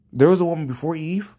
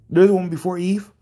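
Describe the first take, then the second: First: Said in the usual way. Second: Incredulous repeat. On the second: Real, not acted. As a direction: throw the question back in disbelief. Repeats the comment in disbelief.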